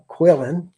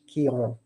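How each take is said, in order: First: The name is said in a Texan accent. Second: The name is said in a French accent.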